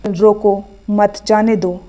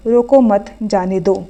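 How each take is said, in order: First: रोको, then a pause, then मत जाने दो together; pause after रोको. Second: रोको मत together, then a pause before जाने दो; pause after मत. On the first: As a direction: say रोको slowly, break, and join मत to जाने दो. (रोको के बाद ठहराव, फिर मत जाने दो साथ में) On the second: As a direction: slowly join मत to रोको, break, then जाने दो. (रोको मत साथ में, फिर ठहरकर जाने दो) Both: Shown as a demonstration. विराम चिन्ह से अर्थ बदलने का उदाहरण.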